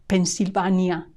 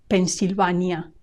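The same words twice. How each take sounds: The two takes are said the same way.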